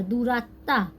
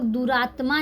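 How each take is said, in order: First: "दुरात्मा" as du-raat-taa, silent m; Bengali doubled t. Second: "दुरात्मा" with t and m both sounded; wrong reading duratma. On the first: Teacher spells it out for learners, "दुरात्मा" said du-raat-taa. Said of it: "इसे हम लोग पढ़ेंगे". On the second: Teacher warns learners off this reading, "दुरात्मा" with audible m. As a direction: say "दुरात्मा" as du-raat-maa. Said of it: "दुरात्मा नहीं पढ़ेंगे". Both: Shown as a demonstration.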